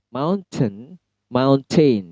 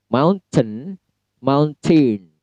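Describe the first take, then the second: Both takes have the same delivery.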